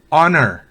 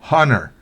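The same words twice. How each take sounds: First: The h sound is silent. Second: The h sound is pronounced. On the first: The speaker calls it right. "La H es muda en honor" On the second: The speaker calls it wrong. "no es honor"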